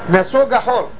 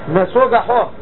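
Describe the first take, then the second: Both takes have the same delivery.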